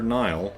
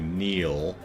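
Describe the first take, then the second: First: The name is said with an 'eye' vowel. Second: The name is said with an 'ee' vowel. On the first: "our friends and relations uh, who are Nile" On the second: "Scottish Gaelic pronunciation of the name is definitely Neil"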